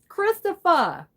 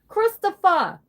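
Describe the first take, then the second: The two takes are said the same way.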